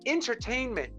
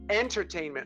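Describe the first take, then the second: First: The first syllable sounds like 'in'. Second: The first syllable sounds like 'en'. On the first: The speaker calls it wrong. "you're saying entertainment" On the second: The speaker calls it right. "The word is entertainment. It's with an E, not an I"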